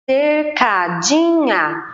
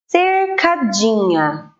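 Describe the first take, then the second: First: "Cercadinha" slow and a little higher, counting syllables. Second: "cercadinha" drawn out slowly, syllable by syllable; slow sounding out. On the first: Teacher counting syllables of cercadinha, slowly. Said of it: "quatro sílabas". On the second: Teacher to pupils, sounding out cercadinha slowly. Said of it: "a palavra". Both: Shown as a demonstration.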